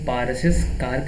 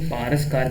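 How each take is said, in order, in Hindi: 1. नाम के अंत में एक अतिरिक्त 'iz' सिलेबल आता है। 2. नाम के अंत में कोई अतिरिक्त सिलेबल नहीं आता। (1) "पारसिस कार कहना गलत है" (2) "पारस कार कहेंगे"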